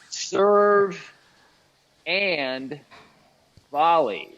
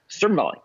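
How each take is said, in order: First: There are short pauses between the three words. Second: The three words run together like one word. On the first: The speaker calls it right. "notice there's a pause in between the words there" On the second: The speaker calls it wrong. "It kind of kind of sounds like one word when you say it that way"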